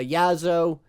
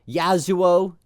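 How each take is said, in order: First: The name is said in a shortened form. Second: The name is said in its full form. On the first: It is the speaker's easier habitual nickname. The speaker calls it wrong. "I've called him Yazo for years now just because it's easier for me" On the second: It is the pronunciation people insist on. The speaker calls it right. "making sure you have that articulation and, and pronunciation correct"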